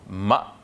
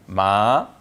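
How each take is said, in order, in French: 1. La voyelle se prononce courte. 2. La voyelle est prolongée, longue. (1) "Ici on prononce le ma de manière courte" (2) "On va rendre maintenant le ma plus long"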